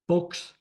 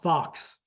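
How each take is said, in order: First: The vowel is long, like 'folks'. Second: The vowel is short, like 'fox'. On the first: The speaker calls it right. "Folks, not fox" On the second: The speaker calls it wrong. "not fox"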